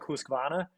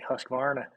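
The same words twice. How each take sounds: First: It is said with a Scandinavian pronunciation. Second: It is said with an American pronunciation. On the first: "if I guess like you're Scandinavian, you would say something more like Husqvarna" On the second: "if you're American, you just say Husqvarna. Put some emphasis on the R"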